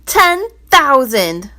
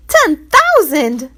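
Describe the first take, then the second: First: Ten thousand, slow and louder; loud answer. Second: Ten thousand, much higher, slow gasp; shocked crowd. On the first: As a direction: announce Ten thousand heavily. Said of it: "the treasurer's answer was loud". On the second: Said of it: "exclaimed everyone in the crowd". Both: Acted.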